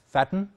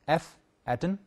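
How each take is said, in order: First: It is said as one single word. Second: A separate letter F precedes the word. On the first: "we can pronounce it as fatten" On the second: "but it is actually F atten for factor of attenuation"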